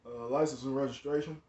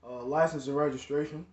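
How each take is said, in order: First: A hint of a stern officer, lower and quieter; lightly voiced cop asking for papers. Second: Lightly imitated officer; casual cop request; first take of cop voice. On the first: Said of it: "That's really how he sound". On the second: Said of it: "That, that's really how he sound".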